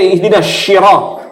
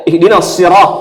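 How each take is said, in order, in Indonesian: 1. Kata kedua diawali dengan bunyi sh. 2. Kata kedua diawali dengan bunyi s biasa. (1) "Bisa dibaca ihdinas syirah" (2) "dibaca dikasih lurus, bukan shi, sod"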